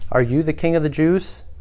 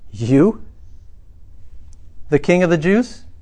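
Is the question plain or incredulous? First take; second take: plain; incredulous. First: It is asked as a plain question. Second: It is asked incredulously, stressing you.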